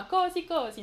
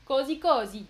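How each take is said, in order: First: Così said CO-sì, first O pushed higher; Così stressed on the first syllable; stress wrongly on O. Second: Così said co-SÌ, the final I louder; Così with the weight on the last syllable; stress on the I. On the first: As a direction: put the accent on the O of Così, the wrong way. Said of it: "Non, pas sur le O". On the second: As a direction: land the accent on the I of Così. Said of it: "sur le I". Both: Shown as a demonstration.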